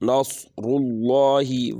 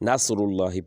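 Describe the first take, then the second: First: The s is a heavy, emphatic s sound. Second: The s is a plain, light s sound. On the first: The speaker calls it right. "तो हम स्वाद पढ़ेंगे" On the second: The speaker calls it wrong. "जो सीन की आवाज़ ज़्यादातर सुनी जाती है"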